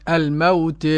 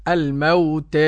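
No difference in how they are said.

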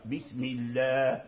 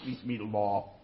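First: The L is light and thin, at the front. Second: The L is heavy and emphatic, deep in the mouth. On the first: The speaker calls it right. "إذا كانت قبله كسرة يرقق اسم الجلالة" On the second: The speaker calls it wrong. "ما تقولش بسم الله"

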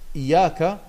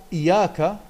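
No difference in how they are said.

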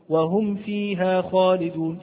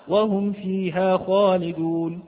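Both takes have the same delivery.

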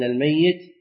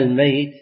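First: The middle y sound is doubled and held. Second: The middle y sound is single and light. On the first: Someone who will die or is dead at heart. "الميت بالتشديد" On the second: Someone who has actually died. "الميت بالتخفيف"

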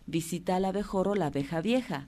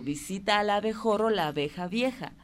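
First: It is said at a faster pace. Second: It is said at a slower, normal pace.

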